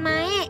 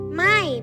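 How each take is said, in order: First: The name ends in an 'eh' vowel. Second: The name ends in an 'ai' diphthong. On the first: The speaker calls it wrong. "bukan Mae" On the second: The speaker calls it right. "Mai, bukan Mae"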